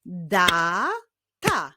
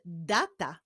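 First: "Data" as long da, pause, ta; "Data" drawn out by syllables; split into syllables. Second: Said in the usual way. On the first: Shown as a demonstration. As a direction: break "Data" into two separate beats. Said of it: "połączenia tych dwóch sylab". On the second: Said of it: "Jaki wyraz powstanie".

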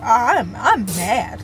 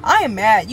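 First: Drawn-out, slow I'm mad; slow admission. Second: Louder, stress on "am"; emphatic I am mad. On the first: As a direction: admit it slowly, holding it back. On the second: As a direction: insist on it, firmer and louder. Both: Real, not acted. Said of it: "not to be mad".

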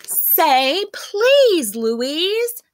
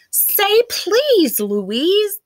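First: High, loud plea with a cry in it; the others pleading with Louise, near crying; tearful pleading. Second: High, loud pleading chorus; coaxing plea to a rude girl. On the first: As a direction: beg her almost in tears. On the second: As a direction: beg her, voice up high and loud. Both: A narrator's reading. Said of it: "the others pleaded".

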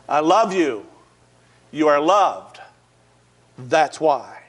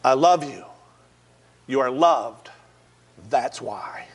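First: Louder, insistent repeat; firm reassurance. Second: Lower, gentle first telling; tender reassurance. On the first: Officer hugging the man repeats it, louder and firmer. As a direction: lean in and make him believe it. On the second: Officer hugging the man on the rooftop, gentle and low. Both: Retold or imitated. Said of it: "Eric Nuttall said".

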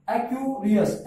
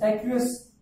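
First: "एक्यूरियस" broken after "एक्यू", then "रियस"; split into parts. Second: Said in the usual way. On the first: Shown as a demonstration. Teacher showing where the word divides, split "एक्यूरियस" after "एक्यू". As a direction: say "एक्यूरियस" in two separate chunks. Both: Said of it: "एक्यूएस एक ही बोल रहा है".

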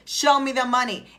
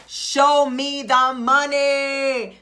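First: Said in the usual way. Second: Loud, very slow, money-hungry holler; drawn-out demand. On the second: Acted. Coach acts out demanding what she was promised, drawn-out demand. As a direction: stretch every word of a loud demand. Acting out demand for what's owed.

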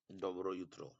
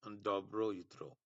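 First: Said in the usual way. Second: Very slow, each syllable of Dobro jutro drawn out; slow pronunciation demo. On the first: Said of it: "তাকে ওরা বলে". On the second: Shown as a demonstration. Teacher showing Bengali students Serbian good morning, very slow. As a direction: spell out Dobro jutro slowly for learners. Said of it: "তার মানে ওরা good morning কে বলে".

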